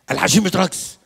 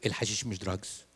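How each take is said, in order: First: الحشيش louder and higher, stubborn insistence; insistent shout. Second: Lower, softer flat denial; mumbled denial. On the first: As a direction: raise it, won't budge. Husband insisting louder in argument. (زوج مصمم بصوت عالي) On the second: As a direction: sullen mutter of denial. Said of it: "قال لي". (إنكار بصوت واطي) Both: Retold or imitated.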